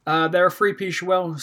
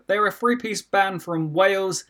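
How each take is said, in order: First: Tripping over the words; fumbled line. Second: Slow, deliberate restart; careful restart. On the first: Real, not acted. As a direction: stumble and lose the thread. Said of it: "I just lost my tongue completely there". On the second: Shown as a demonstration. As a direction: say it again slowly and clearly. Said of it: "No, your ears are not deceiving you".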